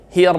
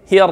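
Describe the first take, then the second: The two takes are said the same way.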